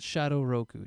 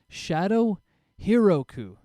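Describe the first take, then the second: First: The second word has two syllables, starting 'ro'. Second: The second word has three syllables, starting 'hi'. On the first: The speaker calls it wrong. "not Shadow Roku" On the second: The speaker calls it right. "Let me say this right"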